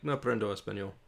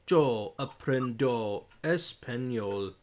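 First: It is said at natural, normal speed. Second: It is said slowly, word by word.

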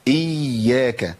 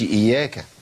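First: The y sound is doubled and held long. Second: The y sound is single and short. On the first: The speaker calls it right. "يبقى لازم انطق ايه؟ حرفين" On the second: The speaker calls it wrong. "ما اقولش"

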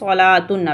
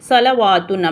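First: No w sound is pronounced in the middle. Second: A w sound is pronounced in the middle. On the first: The speaker calls it right. "இந்த வாவ் அப்படின்றது silent" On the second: The speaker calls it wrong. "அப்போ என்ன படிப்பாங்க அப்படின்னா சலவாத்துன் அப்படிலாம் படிப்பாங்க. ஸோ அந்த மாதிரி படிக்கக்கூடாது"

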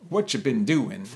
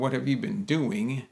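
First: It is said fast with 'have' dropped. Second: Every word is said fully, including 'have'. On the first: "they say, ... So this is fast" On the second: "instead of saying"

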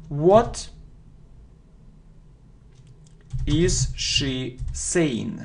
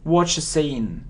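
First: "What is" is said as two full words. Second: "What is" is contracted to "what's".

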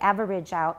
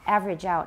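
First: Average is said fully with three syllables. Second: Average is reduced to two syllables. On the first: The speaker calls it wrong. "We don't say average out. It's not wrong, but it sounds too long and low" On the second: The speaker calls it right. "it's pretty much only two syllables"

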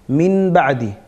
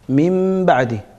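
First: An n sound is said before the b. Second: An m sound is said before the b. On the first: It is heavy on the tongue. The speaker calls it wrong. "min ba'di dediğin zaman senin ağır geliyor dile" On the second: It is easier to say. The speaker calls it right. "Ama mim daha rahat değil mi?"

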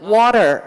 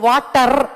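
First: The r sound is curled, American style. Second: The r sound is plain, not curled. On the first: The speaker calls it right. "The ఆర్ has to రోల్" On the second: The speaker calls it wrong. "వాటర్ అంటే కదరదు"

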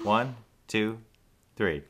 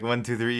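First: The count is paced unevenly. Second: The count is paced evenly.

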